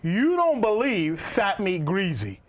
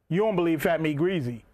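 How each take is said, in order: First: It is said slowly and deliberately. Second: It is said at normal speed.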